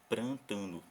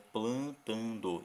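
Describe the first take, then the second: First: The first syllable has an R sound after P. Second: The first syllable has an L sound after P. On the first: The speaker calls it wrong. "em vez de prantando" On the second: The speaker calls it right. "Mas é plantando"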